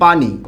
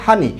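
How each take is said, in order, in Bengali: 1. শব্দটি p ধ্বনি দিয়ে শুরু হয়। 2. শব্দটি h ধ্বনি দিয়ে শুরু হয়। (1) "আমরা একটা শব্দ লিখলাম পানি" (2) "সেই পকে পরিবর্তন করে কি বানিয়ে ফেলা হয়েছে? হ।"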